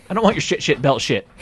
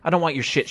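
First: Louder, ranting wrestler voice; mock angry shout. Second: Said in the usual way. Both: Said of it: "Daniel Bryan being like".

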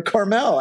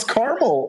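First: Carmel as car-MEL; full second vowel. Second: Carmel as CAR-mul; first-syllable stress. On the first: Host trying the alternative surname reading, Carmel as car-MEL. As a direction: sound out a full "mell" ending on Carmel. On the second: Host unsure how to say the name, trying Carmel as CAR-mul. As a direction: let the end of Carmel shrink to "mul". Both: Shown as a demonstration. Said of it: "I don't know how to say it".

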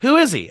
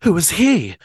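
First: High, loud "Who is he?"; high loud demanding question; sharp demand. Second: Said in the usual way. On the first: Acted. Narrator demands, reread line.

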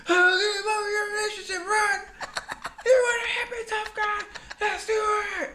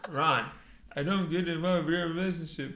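First: Very high, loud screamed challenge; mock screaming fight. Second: Slightly louder put-on voice; reality-show impression. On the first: Friend re-enacting Jersey Shore brawl, high mock scream. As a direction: scream it hysterically at top pitch. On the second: Friend re-enacting Jersey Shore row, contained mock confrontation. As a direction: imitate a TV quarrel, still contained. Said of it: "I'm gonna take Ronnie".

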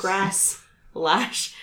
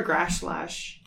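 First: "Grass. Lash." split into two separate words; careful articulation. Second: "Grasslash" slurred with sh in both halves; tongue-twister slip. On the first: Shown as a demonstration. Player working through a tongue twister, "Grass. Lash." carefully separated. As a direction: clean s on "Grass", pause, then "Lash". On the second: Real, not acted. Player stumbling on a kobold's name, slurred "Grasslash". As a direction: trip on "Grasslash", first s turning to sh. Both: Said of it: "It's a tongue twister".

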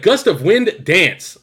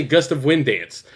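First: Slow, raised "Gust of Wind Dance" with "Dance" split off; mock the odd phrasing of "Gust of Wind Dance", slow and high; wrongly phrased move name. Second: Said in the usual way. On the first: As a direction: punch "Gust of Wind", then land "Dance" separately. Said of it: "They're like". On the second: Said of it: "you would just say".

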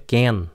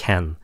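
First: CAN mispronounced like "gan"; wrong K sound. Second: CAN with a breathy "khờ" at the start; throaty K. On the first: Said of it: "Đừng có can". (đọc sai "can" thành âm c tiếng Việt) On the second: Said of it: "nó là âm khờ, nó khạc". ("can" bắt đầu bằng âm khờ, khạc) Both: Shown as a demonstration.

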